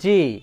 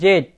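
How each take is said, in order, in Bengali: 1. অক্ষরটি 'zee' হিসেবে বলা হয়। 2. অক্ষরটি 'zed' হিসেবে বলা হয়।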